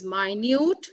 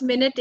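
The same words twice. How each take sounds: First: "minute," as my-NYOOT, rising, stress at the end; adjective minute. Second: "minute" as MIN-it, first syllable stressed; noun minute. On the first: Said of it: "the second word is minute". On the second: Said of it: "the first minute is a noun". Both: Shown as a demonstration.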